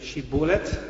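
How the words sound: It is said in the Gileadite way. The speaker belongs to the home side. The speaker calls it right. "Nem tudták kiejteni azt, hogy"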